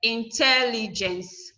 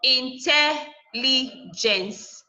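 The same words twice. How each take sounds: First: "Intelligence" joined up, slowly, with stress on TEL. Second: "Intelligence" very slowly, in separate pieces in, tel, li, gence; syllable by syllable. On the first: Teacher giving students the whole word "Intelligence", stressed on TEL. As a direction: say "Intelligence" as one measured word, leaning on TEL. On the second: Teacher splitting a word for students, syllable by syllable. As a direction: sound out "Intelligence" with gaps between syllables. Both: Shown as a demonstration. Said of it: "third to the last syllable".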